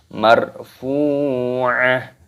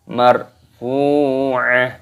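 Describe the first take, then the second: Both takes have the same delivery.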